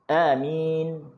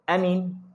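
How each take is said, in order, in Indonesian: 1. Vokal pertama pendek, yang kedua panjang. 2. Kedua vokal dibaca pendek. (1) "kalau a tu pendek, min tu panjang" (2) "Kalau a tu pendek"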